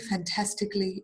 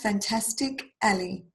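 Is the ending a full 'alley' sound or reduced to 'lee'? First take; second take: reduced; full alley. First: The ending is said as a short 'lee'. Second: The ending is said as a full 'alley'. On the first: The speaker calls it right. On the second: The speaker calls it wrong.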